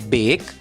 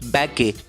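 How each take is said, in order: First: The final e is silent, one syllable. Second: The final e is sounded as a syllable. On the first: The speaker calls it right. "तो नहीं दोस्तों, इन शब्दों का उच्चारण होता है बेक" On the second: The speaker calls it wrong. "हमने जो पद्धति सीखी है उससे तो बी ए के ई का उच्चारण होगा बैके"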